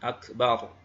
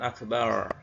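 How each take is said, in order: First: The r is an Arabic r, tongue tip touching. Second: The r is an English r, tongue tip floating. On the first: The speaker calls it right. "yang betul adalah Allahu Akbar R ro ya" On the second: The speaker calls it wrong. "kalau akbar ujung lidah tidak menempel pada makhrajnya, ngambang ya"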